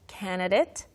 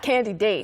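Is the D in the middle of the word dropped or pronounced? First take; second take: dropped; pronounced. First: The D in the middle is not heard. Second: It sounds like candy followed by date. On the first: "where you don't even hear the D" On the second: "Not candidate. You're taking candy on a date"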